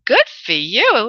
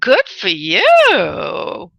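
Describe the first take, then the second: First: Said in the usual way. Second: Slow, stretched-out good for you; savoring each word of Good for you; drawn-out congratulation. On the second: Real, not acted. Psychic congratulates caller.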